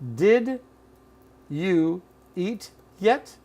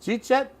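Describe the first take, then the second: First: Every word is said fully and separately. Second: It is squeezed into two syllables, jeet yet. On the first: "Here it is" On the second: "Or simply"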